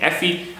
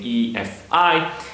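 First: It is said as one short word. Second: It is said as three separate letters. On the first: The speaker calls it wrong. "I know I shouldn't be saying EFI" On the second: The speaker calls it right. "I should be saying EFI, but that's kind of long and unnatural for me"

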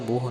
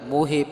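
First: The word ends on a bare 'h' sound. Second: The word ends with an 'e' vowel. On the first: The speaker calls it wrong. "ਕਿਸੇ ਨੇ ਮੋਹ ਨਹੀਂ ਕਹਿ ਦੇਣਾ" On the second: The speaker calls it right. "ਮੋਹੇ ਪਾਠ ਹੈ"

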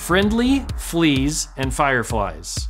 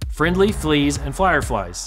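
First: It is said at a slower pace. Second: It is said at a faster pace.

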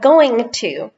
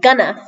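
First: Both words are said fully and separately. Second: The words are blended into one reduced word.

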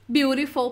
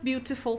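First: It is said with an American accent. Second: It is said with a British accent. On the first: "para americanos" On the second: "para britânicos"

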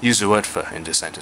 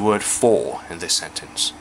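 First: The word 'for' has a weak reduced vowel. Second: The word 'for' has its full vowel. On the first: The speaker calls it wrong. "就唔會讀成……就好古怪噶啦" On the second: The speaker calls it right. "呢個時候你冇理由用一個好弱嘅音"

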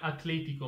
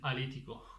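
First: The t before the l is pronounced. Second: The t before the l is dropped.

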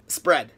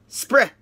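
First: The word is pronounced the way native speakers say it. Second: The word is pronounced with a noticeable foreign accent. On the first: The speaker calls it right. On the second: The speaker calls it wrong.

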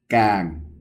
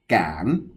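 First: The syllable is said with the mai ek tone. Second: The syllable is said with the mai chattawa tone. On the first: "máy ẹt càng" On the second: "máy chặt ta qua cản"

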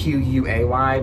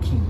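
First: The name is pronounced like "kway". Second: The name is pronounced like "key". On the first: This is how people commonly say it. "It's Quay" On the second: This is the brand's official pronunciation. "but they pronounce it Key"

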